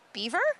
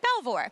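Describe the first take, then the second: First: The name is said the English way. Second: The name is said the American way.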